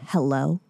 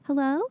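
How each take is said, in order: First: It is said in a rude, curt way. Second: It is said in a friendly, pleasant way.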